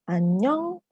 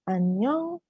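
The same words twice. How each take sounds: First: It is said high with a rising tune. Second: The same.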